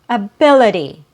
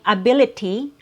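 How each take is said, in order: First: The middle consonant is a quick D sound. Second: The middle consonant is a clear T sound. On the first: "you'll hear a very quick D sound" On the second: "instead of saying ability, ability with a T sound"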